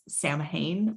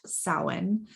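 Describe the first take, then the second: First: The word is read out as it is spelled. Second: The word is said unlike its written letters. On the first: The speaker calls it wrong. "it says Samhain" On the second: The speaker calls it right. "but it's pronounced Samhain"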